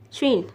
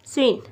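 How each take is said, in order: First: श्विन with a sh sound at the start; correct sound. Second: स्विन said with a plain s as spelled; written form. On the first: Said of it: "हम पढ़ेंगे श्विन". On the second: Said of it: "स्विन है लफा लिखे हम पढ़ेंगे श्विन". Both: Shown as a demonstration.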